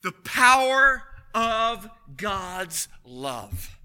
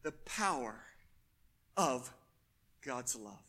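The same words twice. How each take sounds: First: Slow, loud, weighty declaration; booming pulpit pronouncement; slow proclamation. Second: Much lower and softer, almost to himself; hushed repeat. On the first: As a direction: let each word land heavily. Preacher proclaims key phrase. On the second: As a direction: pull it down to a hush. Same phrase repeated softly. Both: Acted.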